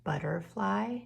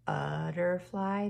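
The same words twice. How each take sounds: First: Said in the usual way. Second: "butterfly" slowed down, every syllable clear; slow emphasized. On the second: Shown as a demonstration. Teacher slows the word so the kids hear the u. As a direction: stretch out "butterfly" so the u is heard. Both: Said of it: "Did you hear a".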